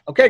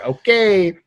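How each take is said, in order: First: The word is said short and quick. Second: The word is said slowly and drawn out. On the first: Simple agreement. "It wasn't like, okay, great" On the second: The speaker is being pointed or sarcastic. "You just draw out the A A Y there"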